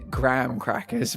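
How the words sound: It is said in an American accent. "I've heard enough Americans say it"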